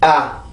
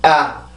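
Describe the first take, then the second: First: The vowel is soft, low and relaxed. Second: The vowel is soft, low and relaxed.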